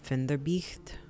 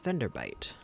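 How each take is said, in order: First: The name is read with German-style sounds. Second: The name is read with English sounds. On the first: The speaker calls it wrong. "I always want to read this as like Finderbicht, which I know it's not at all" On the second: The speaker calls it right. "I believe this is Venderbite"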